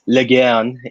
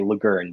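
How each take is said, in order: First: The name is pronounced the French way. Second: The name is pronounced the English way. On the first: This is the original family pronunciation. "in the proper French" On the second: The family adapted the name after emigrating. "because we anglicized it"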